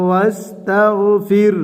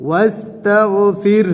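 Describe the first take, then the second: First: ওয়াস্তাগফির with a pushed, bouncing final র; ওয়াস্তাগফির with ধাক্কা at the end; qalqalah bounce. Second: ওয়াস্তাগফির with the final র stopped short; ওয়াস্তাগফির, pause form; stopping pronunciation. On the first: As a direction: push out the end of ওয়াস্তাগফির with a jolt. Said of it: "ধাক্কা দিয়ে উচ্চারণ করতে হবে". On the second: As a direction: recite ওয়াস্তাগফির slowly, closing on a stopped -র. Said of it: "ওয়াকফ করলে কি হবে?". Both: Shown as a demonstration.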